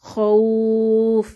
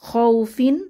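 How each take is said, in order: First: The soft vowel is stretched, ending on f. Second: The word ends with a short vowel plus n.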